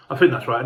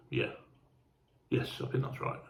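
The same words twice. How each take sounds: First: Said in the usual way. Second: Voiceless, hushed self-check; soft murmured confirmation; whispered to himself. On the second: Real, not acted. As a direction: whisper it as if double-checking alone. Checking train route to himself.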